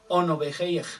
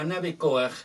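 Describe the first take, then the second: First: The name begins with a rounded 'o' vowel. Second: The name begins with an open 'a' vowel. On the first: This is the true original pronunciation. The speaker calls it right. "su verdadera pronunciación debe de ser" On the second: This is how it is commonly known. The speaker calls it wrong. "conocido como"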